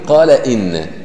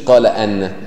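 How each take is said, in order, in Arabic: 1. الأداة تبدأ بحركة 'i'. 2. الأداة تبدأ بحركة 'a'. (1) "إذا جاءت إن بعد القول يجب كسره" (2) "ما تقولش قال أن، هذا خطأ"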